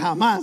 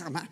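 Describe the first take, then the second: First: The first sound is a soft, light breath. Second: The first sound is a harsh, throaty hiss. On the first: This is how Spanish speakers say it. "Y uno dice jamás, así" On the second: This is how Hebrew speakers say it. "dicen ellos"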